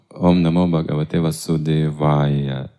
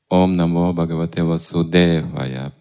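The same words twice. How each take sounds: First: Vasudevaya is stressed on a different syllable. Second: Vasudevaya is stressed the usual Russian way. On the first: The speaker calls it right. "Но надо по-другому" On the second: The speaker calls it wrong. "повторяют все русские так почему-то"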